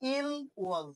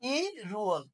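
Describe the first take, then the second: First: The l ends the first syllable, kept separate. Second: The l moves onto the second syllable. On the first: The speaker calls it wrong. "এই ওয়ালটার উচ্চারণ হবে না" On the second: The speaker calls it right. "উচ্চারণটা হয়ে যাবে ই রুয়াল"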